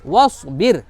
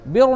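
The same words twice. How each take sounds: First: वस्बिर with a light, thin final r; heavy स, then keep the र of बिर fine. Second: बिर with a thick, dark r, like 'bi-ro'; wrong heavy ra. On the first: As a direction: correct reading of वस्बिर, r unrounded. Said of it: "इसको बारीक करके पढ़ेंगे". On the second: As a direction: fatten the r at the end of बिर. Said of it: "बिर नहीं पढ़ना". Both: Shown as a demonstration.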